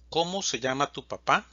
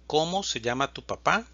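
Both takes have the same delivery.

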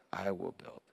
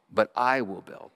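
First: Soft echo. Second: Said in the usual way. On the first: Acted. Softer echo of the repeat.

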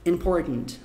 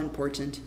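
First: "important" with a New York swallowed T; New York American. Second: "important" softly, with the second T released; fully pronounced T. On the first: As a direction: say "important" like a New Yorker, T held back. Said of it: "mais ou menos assim". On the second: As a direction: sound out the T in "important" clearly. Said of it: "Mas se você falar important". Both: Shown as a demonstration.

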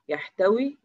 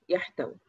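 First: يحتوي with a long final ee, rising; full final vowel. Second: يحتوي cut to a short final i, falling; shortened final vowel. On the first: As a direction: hold the ee of يحتوي, pitch lifted. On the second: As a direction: trim the ee of يحتوي to a brief kasra. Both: Shown as a demonstration. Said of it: "إحنا حذفنا حرف العلة".

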